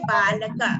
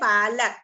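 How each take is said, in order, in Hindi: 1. शब्द का अंतिम स्वर साफ़ बोला जाता है। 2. शब्द व्यंजन पर खत्म होता है, अंतिम स्वर छूट जाता है। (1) "इसी को अगर हम संस्कृत में उच्चारण करेंगे तो बोलेंगे बालका" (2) "इसे जब हम हिंदी में बोलेंगे तो कहेंगे बालक"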